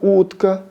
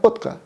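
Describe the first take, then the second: First: The first vowel is an ordinary full-length u. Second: The first vowel is a very short u. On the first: This is how it sounds in Russian. "вы говорите утка" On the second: This is how the Kazakh sound would make it sound. "в казахском языке это бы звучало именно утка"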